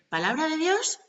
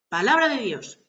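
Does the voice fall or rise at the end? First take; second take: rise; fall. First: The voice rises at the end, like a question. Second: The voice falls at the end, like a statement. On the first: It sounds like a question being asked. The speaker calls it wrong. "no han de poner tono de interrogación" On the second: It is a proclamation, not a question. The speaker calls it right. "Se proclama"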